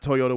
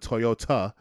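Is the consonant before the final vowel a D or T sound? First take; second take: D; T. First: It is said with a D sound before the end. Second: It is said with a T sound before the end. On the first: The speaker calls it wrong. "Not Toyota with a D" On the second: The speaker calls it right. "but Toyota"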